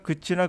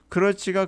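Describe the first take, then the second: First: It is shortened to two syllables without L. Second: It is said in full with three syllables.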